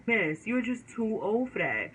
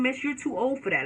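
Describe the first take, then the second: First: Put-on "Miss, you're just too old for that" slowed, each word weighted; slow emphatic verdict. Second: Said in the usual way. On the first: Shown as a demonstration. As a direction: drag it out as a final judgment.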